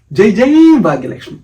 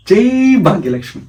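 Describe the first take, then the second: First: Loud, high rallying hail; devotional cheer. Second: Said in the usual way. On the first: Acted. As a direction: cry out the praise to the goddess. Rousing hail repeated to the goddess.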